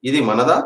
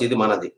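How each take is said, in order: First: "మనదా" lifting at the end; question intonation. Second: Low falling close on "మనది"; positive statement. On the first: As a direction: ask it with a rise on "మనదా". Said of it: "interrogative sentence ఏమవుతుంది?". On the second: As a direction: state it lower, letting "మనది" drop. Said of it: "అంటే మనది". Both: Shown as a demonstration.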